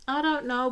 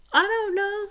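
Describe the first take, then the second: First: Said in the usual way. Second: Sing-song shrug. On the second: Real, not acted. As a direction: toss it up high like a musical shrug. Musing about Joey.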